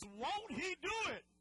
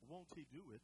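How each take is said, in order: First: It is said with strong conviction. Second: It is said flatly, without conviction.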